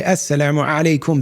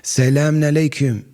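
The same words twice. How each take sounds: First: "Assalamu alaikum" with a guttural Arabic ayn; Arabic-style greeting; Arabic pronunciation. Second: "Selamun alaikum" with a flat Turkish s and no ayn; Turkish-style greeting; Turkish pronunciation. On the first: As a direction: give "Assalamu alaikum" the Arabic throat sound. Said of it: "They don't say". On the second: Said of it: "they say it with a Turkish accent". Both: Shown as a demonstration.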